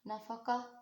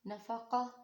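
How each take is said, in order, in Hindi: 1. यह शब्द नरम 'h' की आवाज़ से ख़त्म होता है। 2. यह शब्द नरम 'h' की आवाज़ से ख़त्म होता है।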